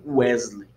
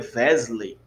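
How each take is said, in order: First: It begins with a rounded W sound. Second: It begins with a buzzing V sound. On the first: The speaker calls it wrong. "Não Wesley" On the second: The speaker calls it right. "se fosse escrito aqui transliterado com vav, então seria Wesley"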